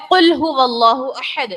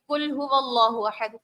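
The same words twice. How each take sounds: First: قل هو اللہ احد with a clear qaf; correct qaf. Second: قل said like کل with a light kaf; wrong kaf. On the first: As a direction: stress the qaf in قل from the back of the throat. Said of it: "یہاں پر ہے قل، قاف سے". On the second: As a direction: demo the common mistake, قل with a front kaf. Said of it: "عام پڑھ رہی ہوتی ہے خواتین". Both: Shown as a demonstration.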